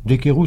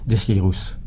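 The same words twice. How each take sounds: First: The name is pronounced the Parisian way. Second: The name is pronounced the regional way. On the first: It sounds more intellectual. "ça fait plus parisien" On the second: It sounds very local. "ce qui fait très régional"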